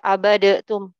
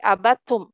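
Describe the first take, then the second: First: A short vowel sound separates the d and t. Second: The d runs straight into the t. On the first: The speaker calls it wrong. "bukan dibaca abadatum" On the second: The speaker calls it right. "tapi abadtum, langsung ke ta"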